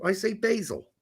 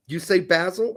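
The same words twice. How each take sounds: First: Basil said as BAY-zil with a long a. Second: Basil said as BAZ-il with a short a. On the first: Host contrasting basil pronunciations, saying BAY-zil with long a. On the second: Host contrasting basil pronunciations, saying BAZ-il with short a. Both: Shown as a demonstration. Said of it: "You say basil, I say basil".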